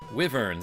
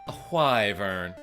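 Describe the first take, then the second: First: The first syllable sounds like 'with'. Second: The first syllable sounds like 'why'. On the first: "as in with" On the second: "Y, again, sounds cooler"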